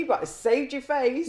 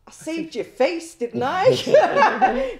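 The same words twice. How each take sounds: First: Said in the usual way. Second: High, loud, laughing comeback; laughing retort. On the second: Retold or imitated. Officer laughs back at the humiliated prisoner. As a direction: toss it back at him with a laugh. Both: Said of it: "And I'm like".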